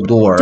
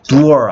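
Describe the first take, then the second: First: The vowel sounds like an 'o'. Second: The vowel sounds like a long 'u'. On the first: The speaker calls it right. "door에서는 오가 돼서 예외적으로" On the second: The speaker calls it wrong. "보통 오는 우가 되는 게 대부분인데 ... door 아니고"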